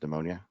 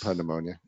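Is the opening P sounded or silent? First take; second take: silent; sounded. First: The word starts with a silent P. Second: The word starts with a sounded P. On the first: "Most people mispronounce it as pneumonia" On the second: "but there's a P there"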